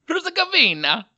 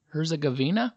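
First: Loud, high mock Italian accent. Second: Said in the usual way. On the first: Podcaster playing with a country name, exuberant mock Italian accent. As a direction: belt it out in a hammed-up Italian accent. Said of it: "say a Bosnian word with a Italian accent". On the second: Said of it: "with a Italian accent".

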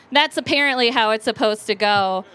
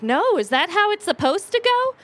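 First: Said in the usual way. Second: Higher-pitched innocent question; naive questioning. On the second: Retold or imitated. Young woman asking the bar owner, naively puzzled. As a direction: act out wide-eyed innocence, voice climbing.

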